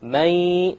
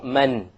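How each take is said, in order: First: The n is dropped into a nasal sound. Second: The n is pronounced clearly at the end. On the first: The speaker calls it right. "you drop the noon sound. But you have a ghunnah" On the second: The speaker calls it wrong. "Notice there is no man"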